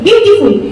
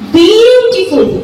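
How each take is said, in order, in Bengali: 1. শব্দটি দ্রুত, ছোট স্বরধ্বনি দিয়ে বলা হয়। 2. শব্দটি ধীরে, গোলাকার স্বরধ্বনি দিয়ে বলা হয়। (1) "চট করে উচ্চারণ করে দিই beautiful কিন্তু না" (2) "একটু ঘুরিয়ে উচ্চারণ করব"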